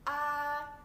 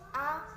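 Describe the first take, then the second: First: The vowel is held for two long beats. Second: The vowel is held for one short beat. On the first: "diucapkan dengan panjang ... yaitu dengan dua ketukan" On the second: "diucapkan dengan suara yang pendek seperti mengucapkan a dengan satu ketukan"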